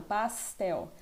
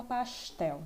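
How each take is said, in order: First: "pastel" with a sharp, hissing S; sibilant paulista S. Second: "pastel" with the S hushed to SH, "pashtel"; carioca chiado S. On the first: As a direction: say "pastel" with a crisp S as in São Paulo. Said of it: "né, sibilado". ("pastel" com S sibilado paulistano) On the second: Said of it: "é um S mais chiado". ("pastel" com S chiado carioca) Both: Shown as a demonstration.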